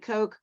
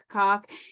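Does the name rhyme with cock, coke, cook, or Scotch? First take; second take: coke; cock. First: The name rhymes with coke. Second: The name rhymes with cock. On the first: "It could be Coke"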